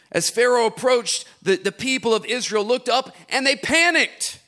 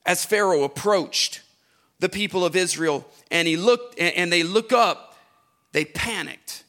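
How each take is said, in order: First: Livelier reread. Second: Said in the usual way. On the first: Shown as a demonstration. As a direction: read it again with more energy and lift. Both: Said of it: "Don't do this".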